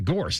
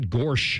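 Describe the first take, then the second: First: The name ends with a hissing 's' sound. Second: The name ends with a hushing 'sh' sound. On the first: The speaker calls it right. "Yeah, gorse, not gorsh" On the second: The speaker calls it wrong. "not gorsh"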